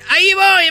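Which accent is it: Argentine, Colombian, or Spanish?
Argentine. It is said in an Argentine accent.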